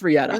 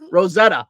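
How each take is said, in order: First: It is said in a Boston accent. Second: It is said in a standard accent.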